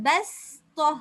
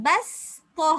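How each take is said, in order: No difference in how they are said.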